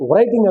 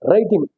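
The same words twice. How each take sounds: First: The word starts with a W sound. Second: The word starts with no W sound. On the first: The speaker calls it wrong. "అనకూడదు" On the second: The speaker calls it right. "డబ్ల్యూ silent పలకాలి"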